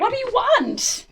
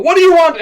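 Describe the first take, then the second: First: High, loud yelled demand; player yells. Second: High, loud mock yell; yelled demand. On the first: Acted. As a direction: yell it as you lunge. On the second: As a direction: shout the question as you attack. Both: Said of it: "you yell".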